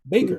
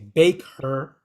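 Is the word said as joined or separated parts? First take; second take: joined; separated. First: It is said as one joined word. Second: It is said as two separate words. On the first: The speaker calls it right. "they're kind of combined" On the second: The speaker calls it wrong. "We don't say bake her"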